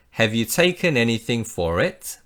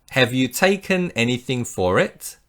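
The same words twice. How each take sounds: The two takes are said the same way.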